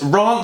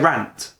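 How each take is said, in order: First: The vowel has a posh southern English sound. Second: The vowel has a plain, non-posh sound. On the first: "sounds extremely posh. It sounds like Southern England" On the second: "But I would say rant"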